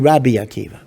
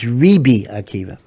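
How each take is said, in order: First: The title's first vowel sounds like 'a'. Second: The title's first vowel sounds like 'i'. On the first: The speaker calls it right. "so we say Rabbi Akiva" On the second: The speaker calls it wrong. "the correct vocalization is Ribi Akiva"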